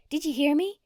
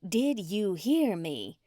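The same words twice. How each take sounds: First: High, loud demand at her husband; wife snapping at her husband, loud and high; berating. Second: Slow, word by word through gritted teeth; wife repeating herself to her husband, slow and gritted. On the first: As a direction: bark it at him, high and loud. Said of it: "She berated poor old Darnell". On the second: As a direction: grind each word out slowly. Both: Acted.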